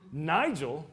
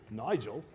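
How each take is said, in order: First: Said in the usual way. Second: "Nigel" in a playful British accent. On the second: Shown as a demonstration. Preacher joking with congregation about British names, playful British accent. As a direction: say "Nigel" lower and softer, with a put-on British accent. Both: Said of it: "You gotta say it with the right accent".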